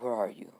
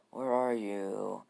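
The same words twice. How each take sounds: First: Lightly voiced searching menace; Gaara. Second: Slow, drawn-out eerie search; Gaara. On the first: Kid searches for vanished Naruto, mildly menacing. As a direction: ask it quickly, with a hint of threat. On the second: Acted. Kid searches again for vanished Naruto, slow and eerie. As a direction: stretch each word out creepily. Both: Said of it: "Gaara's like".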